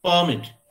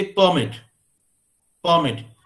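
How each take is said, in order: First: परमिट said as per-MIT, second syllable stressed; teacher contrasts the verb परमिट. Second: परमिट said as PER-mit, first syllable stressed; teacher shows the noun परमिट. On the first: Stress second syllable of परमिट. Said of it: "लेकिन यहाँ पे stress हम यहाँ पे दे रहे हैं". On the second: Stress first syllable of परमिट. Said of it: "हम stress यहाँ दे रहे हैं". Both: Shown as a demonstration.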